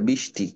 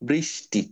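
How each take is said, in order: First: The r sound after the first consonant is dropped. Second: The r sound after the first consonant is pronounced. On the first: The speaker calls it wrong. "দেখবা অনেকেই বলে বৃষ্টি, এটা কি ঠিক বলো?" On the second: The speaker calls it right. "উচ্চারণটা হবে বৃষ্টি"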